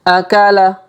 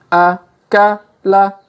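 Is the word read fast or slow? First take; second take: fast; slow. First: The syllables are said quickly as one word. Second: The syllables are said slowly and separately. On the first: "Kalau dipercepat" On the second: "Kita baca pelan-pelan"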